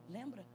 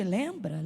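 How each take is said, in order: First: Lembra? dropped to almost nothing; faded whisper-soft Lembra?. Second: Said in the usual way. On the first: Shown as a demonstration. Preacher repeating a question to the congregation, fading out. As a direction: let the last Lembra? fade away softly. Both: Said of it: "repeated question".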